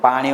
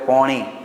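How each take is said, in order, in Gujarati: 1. તે પ્રમાણભૂત ગુજરાતીમાં 'અ' સ્વર સાથે બોલાય છે. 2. તે ઉત્તર ગુજરાતી બોલીમાં 'ઓ' સ્વર સાથે બોલાય છે.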